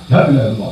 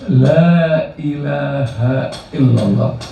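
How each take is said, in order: First: It is said quickly and sharply, like a snap. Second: It is said slowly and calmly, with reflection. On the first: The words are rushed without devotion. The speaker calls it wrong. "jangan terburu-buru Bu, apalagi pakai dibentak" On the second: The words are deeply felt and reflected on. The speaker calls it right. "betul-betul diresapi, direnungi, ditadaburi"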